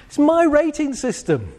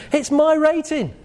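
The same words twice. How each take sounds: First: "my" hit high and firm in "It's my rating system"; stress on my again. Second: "my" punched high in "It's my rating"; stress on my. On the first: Speaker to audience, stressing "my" in "It's my rating system". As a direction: land on "my" as the key word. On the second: Speaker to audience, stressing "my" in "It's my rating". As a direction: lean hard on "my". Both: Shown as a demonstration. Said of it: "Why won't I give myself a ten?".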